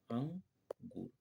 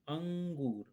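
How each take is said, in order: First: अंगूर stretched slowly to show the nasal sound; slow, drawn out word. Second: Said in the usual way. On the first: Shown as a demonstration. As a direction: draw अंगूर out slowly for the children. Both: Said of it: "अ के बाद हमारा न आ रहा है".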